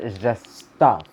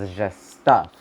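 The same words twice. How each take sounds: First: "just stuff" slowed right down, punched louder; emphatic stress. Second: "stuff" landed with some extra weight; stress on stuff. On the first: Shown as a demonstration. Reader repeating the point to Taurus viewers, heavy emphasis on "just stuff". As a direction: draw out "just" and hit "stuff" hard. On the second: Real, not acted. Reader downplaying possessions to Taurus viewers, stress on "stuff". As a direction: lean on "stuff", louder and slower. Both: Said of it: "emphasis on it".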